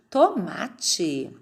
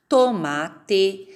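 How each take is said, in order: First: "tomate" ending in a chi sound; everyday "tomate" with the final E turned to I. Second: "Tomate" ending in a full E sound; careful dictation of "Tomate" with a clear final E; final E as written. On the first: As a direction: say the last syllable of "tomate" as chi. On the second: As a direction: pronounce the last vowel of "Tomate" as E, not I. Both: Shown as a demonstration. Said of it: "falam esse E final com som de I".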